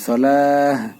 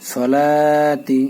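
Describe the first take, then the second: First: The word ends with a soft h sound. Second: The word ends with a t sound and vowel. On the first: The recitation stops after the word. "থামার সময় তাটা হা হয়ে যাবে" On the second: The recitation continues after the word. "এখানে একালিপ টান দিয়ে তি বলবেন"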